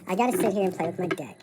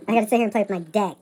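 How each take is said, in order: First: Said in the usual way. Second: "deck" louder and quicker, clearly not "dick". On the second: Shown as a demonstration. Correcting herself so "deck" isn't heard as "dick". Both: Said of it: "not dick, okay?".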